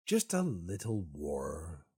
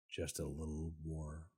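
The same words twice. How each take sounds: First: Slow, drawn-out mock plea; playful pleading. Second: Low, hushed mock plea; soft coaxing. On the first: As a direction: coax for it, stretching the words. Begging the game for a war. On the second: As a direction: coax quietly, as if asking a tiny favour. Repeats the plea more softly.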